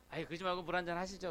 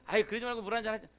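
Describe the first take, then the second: First: Mildly coaxing offer, a bit quick; polite urging. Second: Fast, pressing offer with rising impatience; pushy insistence. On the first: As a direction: press the offer gently but politely. Offering water a second time. (공손하게 권하는 말투) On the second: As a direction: rush the offer like you won't take no. Third insistent offer of water. (빠르고 끈질기게 조르는 말투) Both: Retold or imitated.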